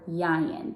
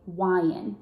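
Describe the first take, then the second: First: The L sounds are replaced by Y sounds. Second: The L sound is replaced by a W sound. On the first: "or a Y" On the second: "They might substitute that L for a W"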